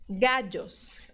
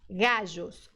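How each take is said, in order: First: The double L sounds like a DJ. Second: The double L sounds like a soft ZH. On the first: "Outro som é o D J" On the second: "É igual ao J do português"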